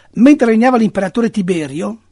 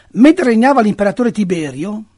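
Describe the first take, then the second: The two takes are said the same way.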